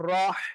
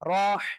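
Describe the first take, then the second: First: The h is breathed through a squeezed throat. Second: The h is breathed through a squeezed throat.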